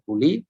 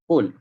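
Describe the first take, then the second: First: The word ends with an 'i' vowel. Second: The word ends on 'l' with no vowel. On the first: The speaker calls it wrong. "tak baca quli" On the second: The speaker calls it right. "tapi dibaca dengan qul"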